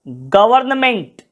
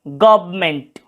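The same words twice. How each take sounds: First: Every written sound of the word is pronounced. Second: Some written sounds are reduced in natural speech. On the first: "यहां पे गवर्नमेंट लिखा जाता है" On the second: "इसका सही उच्चारण होगा गवर्नमेंट"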